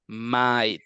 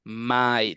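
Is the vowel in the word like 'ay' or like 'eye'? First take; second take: eye; eye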